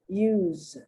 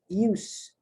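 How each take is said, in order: First: The word ends with a buzzing Z sound. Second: The word ends with a hissing S sound. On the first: It is the verb, to use something. "The S sounds like a Z" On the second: It is the noun, the use of something. "the S is pronounced like an S"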